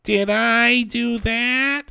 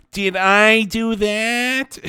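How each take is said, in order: First: Much higher, slow put-on nerd voice; second, higher try at the Urkel catchphrase; Steve Urkel. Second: High, slow nasal-free nerdy catchphrase voice; slow put-on Steve Urkel catchphrase. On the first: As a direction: pitch it way up and drag it out like Urkel. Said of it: "Let me give another take here". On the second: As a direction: squeak it out like a nerdy sitcom kid. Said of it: "that's my best Steve Urkel".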